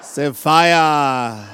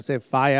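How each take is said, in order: First: "fire" ending in an open a, no r; West African accent. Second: American accent. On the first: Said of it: "Try to say it like an". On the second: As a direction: fire with a rolled American r. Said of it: "like an American". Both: Shown as a demonstration.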